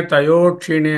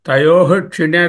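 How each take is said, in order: First: తయో said without the visarga, run straight into క్షీణే; wrong way: swallow the "h" of తయోః; dropped visarga. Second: తయోః with the final visarga fully sounded as "ha" before క్షీణే; full visarga. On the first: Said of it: "అని చెప్పకూడదు". (విసర్గ లేకుండా తయో అని తప్పుగా పలకడం) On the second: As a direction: say తయోః with a clear breathy "h" at the end, no sandhi. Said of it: "తయోః అనేది పూర్తిగా పలకాలి విసర్గని". (తయోః లో విసర్గను పూర్తిగా పలకడం) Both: Shown as a demonstration.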